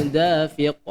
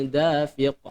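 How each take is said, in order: No difference in how they are said.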